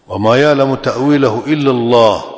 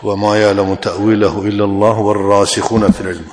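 First: It stops with a pause after Allah. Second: It is read straight on with no pause.

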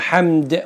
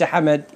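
First: The name is one syllable, with no vowel after m. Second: The name is two syllables, with a vowel after m. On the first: The name is a verbal noun. The speaker calls it right. "اسمه حمد" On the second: The name is a verb form. The speaker calls it wrong. "وليس حمد"

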